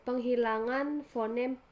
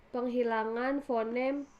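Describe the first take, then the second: No difference in how they are said.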